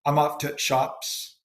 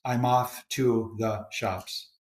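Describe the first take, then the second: First: I'm off to shops with "the" cut to a stopped t; Yorkshire elision. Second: Said in the usual way. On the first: Shown as a demonstration. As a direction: drop the article before shops, slowly shown. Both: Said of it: "reductions or elision is very common".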